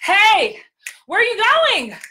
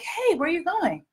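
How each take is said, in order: First: It is yelled loudly as if over noise. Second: It is said at a normal, quiet volume.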